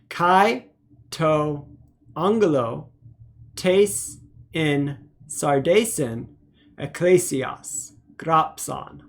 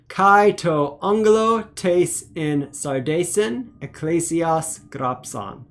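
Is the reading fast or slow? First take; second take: slow; fast. First: The words are read at a slow pace. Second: The words are read at a faster pace. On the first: "let's go ahead and read slowly together" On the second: "a little bit faster"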